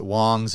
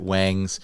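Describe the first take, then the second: First: The vowel sounds like the 'o' in 'songs'. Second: The vowel sounds like the 'a' in 'bangs'. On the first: "You can pronounce it Wongs if you want" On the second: "You can pronounce it Wangs"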